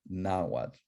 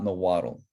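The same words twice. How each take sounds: First: "Nahuatl" said nah-WAHT, softly, with open a's; correct pronunciation. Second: "Nahuatl" said nuh-WAH-tul, schwa first and an added -tul ending; wrong pronunciation. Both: Shown as a demonstration. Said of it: "It's not Nahuatl".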